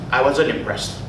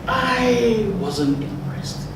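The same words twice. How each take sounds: First: It sounds arrogant and dismissive. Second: It sounds hesitant, lower and drawn out. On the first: The speaker looks down on the person. The speaker calls it wrong. "it felt very arrogant" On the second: The speaker reluctantly criticizes the person. The speaker calls it right. "coupled with the lower voice and that lengthening of"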